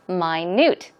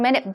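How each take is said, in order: First: It is said with the different pronunciation meaning tiny. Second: It is said as the everyday word for sixty seconds. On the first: Something very, very small. "the pronunciation is minute. ... It's pronounced very differently" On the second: A unit of time equal to sixty seconds. "sixty seconds is one minute"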